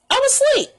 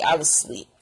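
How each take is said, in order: First: Very high-pitched emphatic repeat; comic high squeal of insistence. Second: Low, matter-of-fact insistence; low-pitched, settled claim; low statement. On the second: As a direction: state it low and a touch softer. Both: Real, not acted. Repeats claim, low then squealed.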